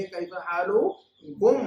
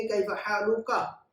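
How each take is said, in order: First: Slow, louder Kaif हालुकुम with the कुम ending stressed; model plural form. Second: Slow, careful Kaif हालुका; slow model phrase. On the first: Teacher contrasts the plural greeting for many people, slow and loud. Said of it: "बहुत सारे लोगों से हम बात करेंगे तो कहेंगे". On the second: Teacher slowly models the greeting for one man. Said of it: "एक मर्द से कहेंगे". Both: Shown as a demonstration.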